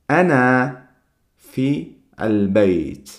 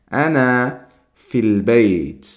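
First: It is said slowly, each word kept separate. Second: It is said faster, with the words run together.

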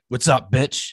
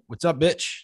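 First: It is said in a hostile, angry tone. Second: It is said in a playful, joking tone.

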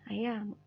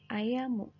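First: The word ends on m with no vowel. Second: The final u vowel is heard after the m. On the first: "u-nya itu tidak terbaca, tidak terdengar oleh lawan bicara" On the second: "di sini ya tulisannya"

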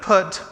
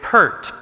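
First: The word has a short vowel with no r. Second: The word has an r-coloured vowel. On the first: The speaker calls it right. "instead of put" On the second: The speaker calls it wrong. "I would say pert"

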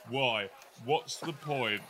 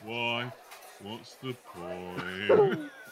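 First: It is said in the speaker's ordinary voice. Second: It is said in a gloomy, droning character voice.

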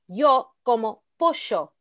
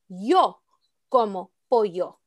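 First: The y and ll are said differently. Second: Both y and ll are said with y. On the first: The speaker calls it wrong. "You can't say" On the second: The speaker calls it right. "without the sh sound"

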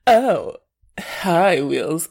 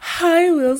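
First: It sounds casual, feigning indifference. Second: It sounds overly eager and excited.

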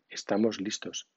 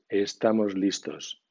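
First: The s sounds are voiceless, with no buzzing. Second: The s sounds are voiced, with a buzzing vibration. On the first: "La consonante S del español es sorda" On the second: "forzando la pronunciación del español dice las 4 S sonoras"

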